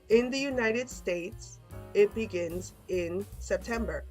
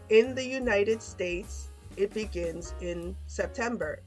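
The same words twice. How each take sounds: The two takes are said the same way.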